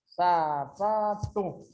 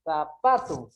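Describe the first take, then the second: First: "Sapato" very slow, sa, pa, to; slow teaching split of "Sapato"; syllable by syllable. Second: Said in the usual way. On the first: Shown as a demonstration. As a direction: draw out each syllable of "Sapato". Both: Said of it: "ela tem mais forte aqui".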